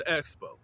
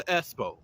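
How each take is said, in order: First: Said in the usual way. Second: "espo" said with an s sound, no k; deliberate mispronunciation. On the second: Shown as a demonstration. Correcting to the nickname for the expo, "espo" without k. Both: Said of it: "I'm gonna say it like that".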